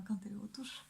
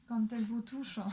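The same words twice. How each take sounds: First: Giggly whispered echo; hushed, breath-only repeat, amused; playful whisper. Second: Said in the usual way. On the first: Pretend. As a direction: whisper it with a suppressed laugh. Giggling, whispered repeat of her words.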